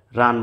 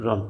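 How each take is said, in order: First: রান with a clear "aa"; open A vowel. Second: রন with a rounded "o"; silent A-vowel. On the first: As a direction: sound the wide aa-vowel in রান. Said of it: "রান বলা যাবে না". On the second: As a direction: say রন as "ron", vowel held back and rounded. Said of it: "বলতে হবে রন". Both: Shown as a demonstration.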